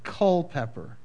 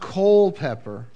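First: The first syllable does not sound like coal. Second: The first syllable sounds like the word coal. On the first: The speaker calls it right. "but Culpeper. Not coal" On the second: The speaker calls it wrong. "Not Culpeper, like C-O-A-L"

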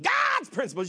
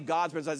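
First: It is said with strong energy. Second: It is said weakly, without energy.

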